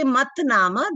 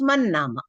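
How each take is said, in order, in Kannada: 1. ಮೊದಲ ಪದ 't' ಧ್ವನಿಯಲ್ಲಿ ಕೊನೆಗೊಳ್ಳುತ್ತದೆ. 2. ಮೊದಲ ಪದ 'n' ಧ್ವನಿಯಲ್ಲಿ ಕೊನೆಗೊಳ್ಳುತ್ತದೆ. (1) "that is actually mat nama" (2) "then it becomes man nama"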